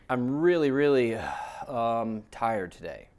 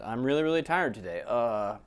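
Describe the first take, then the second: First: A filled pause comes inside the sentence. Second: A filled pause comes after the sentence.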